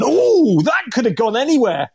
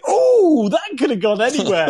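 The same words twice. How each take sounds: First: Retold shout at TV. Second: Son imitating dad's shout. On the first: Dad shouting at the television over a wide shot, mock dismay. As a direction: yell at the TV as a shot flies wide. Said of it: "I shouted at the television". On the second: Son imitating dad shouting at the TV, laughing. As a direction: mimic your dad yelling at the telly. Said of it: "shooting at the television going".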